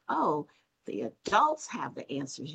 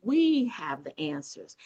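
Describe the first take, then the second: First: ADULTS lifted as the rejected option; stress on ADULTS. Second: WE stretched out and punched; slow down and land hard on "We"; stress on WE. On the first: Host quoting what guest did not say, stressing "adults". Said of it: "But you did not say". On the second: Host quoting guest's words back, stressing a drawn-out "We". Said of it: "You said". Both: Retold or imitated.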